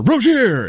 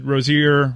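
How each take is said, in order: First: Hammed-up sportscaster cry of "Rozier"; big mock announcer call on "Rozier"; Josie. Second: Said in the usual way. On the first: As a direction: stretch "Rozier" out, leaping high on the end. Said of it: "pronounce it like Josie". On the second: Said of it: "I'm just gonna pronounce it like Josie".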